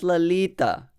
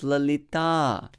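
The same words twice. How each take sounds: First: The final vowel is short. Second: The final vowel is long. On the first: The speaker calls it wrong. "it's not Lalita" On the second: The speaker calls it right. "it's Lalita"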